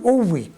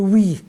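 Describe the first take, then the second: First: It is two syllables with a doubled w. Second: It is a single syllable starting with w. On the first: This is how it is read today. "دلوقتي بننطق الاثنين ... نقول اوي" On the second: This is how it was read in the past. "زمان كانت تتقري وي"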